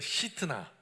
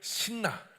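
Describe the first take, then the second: First: The name is said as three syllables, si-teu-na. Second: The name is said as two syllables, sin-na.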